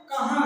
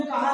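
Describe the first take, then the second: First: कहा with a nasal final आ, as कहाँ; nasalized vowel. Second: Said in the usual way. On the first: Shown as a demonstration. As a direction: let air through the nose on the last vowel of कहा. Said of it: "मुख तथा नाक दोनों से". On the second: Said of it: "केवल हमारे मुख से वायु".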